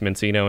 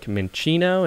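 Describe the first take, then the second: First: The name is said with an American pronunciation. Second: The name is said with an Italian pronunciation. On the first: "the way an American would say it" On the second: "Like an Italian thing?"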